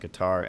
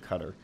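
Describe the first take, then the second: First: It is said the common American way. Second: It is said in a non-American way. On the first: This is how most Americans say it. "most of us Americans say Qatar" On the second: This is how it is actually said. "it's actually Qatar"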